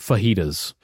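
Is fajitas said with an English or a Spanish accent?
English. It is said with a plain English accent. The speaker is not trying to sound authentic. "or just say fajitas"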